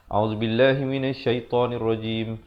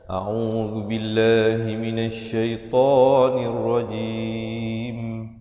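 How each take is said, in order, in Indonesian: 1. Vokal 'lah' dan 'ta' dibaca pendek. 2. Vokal 'lah' dan 'ta' dibaca panjang. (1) "seakan-akan la itu satu harakat dan ta juga satu harakat" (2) "lafz jalalah itu dua harakat dan ta juga dua harakat"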